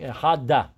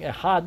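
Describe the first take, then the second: First: An extra vowel is added after the d. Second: The word ends cleanly on the final d. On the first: The speaker calls it wrong. "he's saying echada. That's not correct" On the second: The speaker calls it right. "instead of saying echad"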